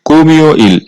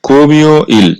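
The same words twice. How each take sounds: Both takes have the same delivery.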